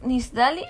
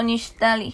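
First: "Nisdali" with a plain S; S pronunciation. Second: "Nishtali" with SH before a T; SH pronunciation. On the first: Asking which name is right, S version. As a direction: say "Nisdali" with S before the D. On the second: Asking which name is right, SH version. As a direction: say "Nishtali" with a hushing SH. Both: Shown as a demonstration. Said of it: "¿es Nisdali o Nishtali?".

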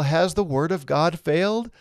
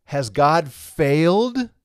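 First: Said in the usual way. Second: Slow, drawn-out worried "Has God failed?"; anxious question. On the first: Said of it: "provokes the question". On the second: Pretend. Teacher voicing an objector to Paul, slow worried question. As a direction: voice the objector asking "failed?" slowly. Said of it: "All of this provokes the question".

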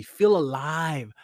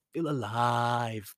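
First: "feel alive" drawn out slowly, FEEL punched; slow, emphatic "feel alive" with stress on FEEL. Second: "feel alive" sunk lower and stretched out; low, slow echo. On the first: Speaker urging listeners to live freely, emphatic. Motivational refrain, first emphatic take. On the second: Speaker letting the point of living sink in, low and slow. Motivational refrain, repeated lower, slower. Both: Real, not acted.

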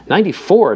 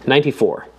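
First: Higher, louder disbelieving repeat; astonished echo. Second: Said in the usual way. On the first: Acted. Obispo echoing Jeremy's answer, astonished. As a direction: throw the number back in disbelief. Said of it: "Doctor Obispo repeated". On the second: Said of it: "then answered".

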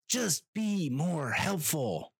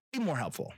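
First: High, slow, drawn-out pleading; slow exasperated whine at the airline; exasperated plea. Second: High, quicker repeated plea; brief high-pitched appeal; exasperated plea. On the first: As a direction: stretch each word out in high-pitched frustration. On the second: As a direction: toss it out high, without stretching it. Repeats plea, quicker and less drawn out. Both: Acted.

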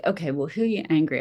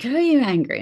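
First: Said in the usual way. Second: Higher, louder mock challenge; mock accusing question. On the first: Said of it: "people are like". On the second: People quizzing her in business courses, loud imitated challenge. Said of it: "they're like".

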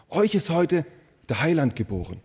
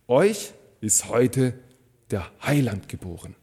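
First: Said in the usual way. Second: Very slow, weighty announcement with pauses; drawn-out delivery, dropping low at the end; solemn proclamation. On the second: Acted. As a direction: proclaim the angel's message word by word. Angel's message proclaimed, first take.

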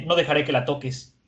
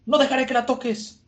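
First: Said in the usual way. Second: High, strained vow in a different voice; defiant vow. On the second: Acted. Igaram vowing to protect the princess, high defiant voice. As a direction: swear to protect her, voice pitched up.

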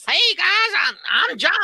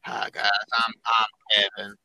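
First: High, twangy country caricature; weird country accent. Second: Very low, put-on dopey nerd voice; mocking low-voiced impersonation of a friend; Kevin. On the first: Retold or imitated. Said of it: "it's a weird, like, country". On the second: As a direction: drop it deep for a caricature. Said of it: "when you did Kevin's voice".

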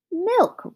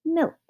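First: High, outraged exclamation; roared. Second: Lightly musing, pitched up; a mild, pondering exclamation; thoughtful. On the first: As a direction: roar it in disbelief. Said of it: "roared the farmer". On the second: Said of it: "he said thoughtfully". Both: A narrator's reading.

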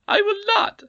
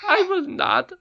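First: High, loud squeaky refusal with rising end; stubborn goblin queen. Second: High, loud squeaky refusal; stubborn goblin queen. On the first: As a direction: refuse again defiantly. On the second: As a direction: refuse flatly. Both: A narrator's reading.

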